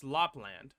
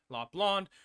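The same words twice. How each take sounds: First: "Lapland" ending like the English word land. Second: "Lapland" ending in an open "lahnd"; Lapland as "lond". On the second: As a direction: say the end of "Lapland" to rhyme with "pond". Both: Shown as a demonstration. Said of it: "whatever you like to pronounce".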